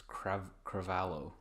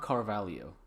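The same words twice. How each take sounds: First: Cravalho starting crav, with r straight after the C; corrected pronunciation. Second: Carvalho with the r before the first v, car-VAL-yo; mispronunciation. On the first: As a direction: say Cravalho as cra-VAL-o, carefully. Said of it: "It's not Carvalho. It's Crav". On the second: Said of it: "It's not Carvalho". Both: Shown as a demonstration.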